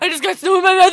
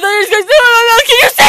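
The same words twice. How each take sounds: First: Said in the usual way. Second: Loud fast high yell; shouting. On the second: Real, not acted. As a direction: shout it out quickly. Repeats it louder.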